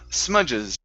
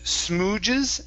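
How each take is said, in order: First: The first vowel sounds like 'u' in cup. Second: The first vowel sounds like 'oo' in food. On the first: The speaker calls it right. "it's sma, smudges" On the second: The speaker calls it wrong. "Instead of smooges"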